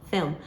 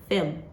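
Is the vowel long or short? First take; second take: short; short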